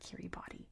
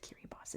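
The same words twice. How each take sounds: First: The last syllable ends in a ti sound. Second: The last syllable ends in an s sound. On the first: The speaker calls it wrong. "It's not Kiribati" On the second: The speaker calls it right. "It's pronounced as an S"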